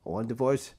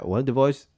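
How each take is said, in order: First: "I want a divorce" rising at the end; upward inflection. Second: Quick, run-together "I want a divorce"; said faster. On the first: Husband to wife, "divorce" with rising tone. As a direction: lift the tone on "divorce" like a question. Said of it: "did that upward inflection". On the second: Husband interrupting wife, said quickly. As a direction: rattle off "I want a divorce" in one go. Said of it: "say it faster like that". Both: Shown as a demonstration.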